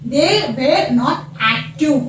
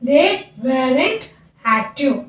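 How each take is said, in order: First: Were and not are said as separate words. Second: Were and not merge into one contracted word.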